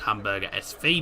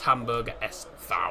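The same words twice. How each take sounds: First: It is said with an English pronunciation. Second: It is said with a German pronunciation.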